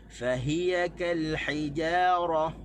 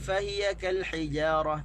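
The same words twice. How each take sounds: First: Fahiya is stressed on its second syllable. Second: Fahiya is stressed on its first syllable. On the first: The speaker calls it right. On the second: The speaker calls it wrong.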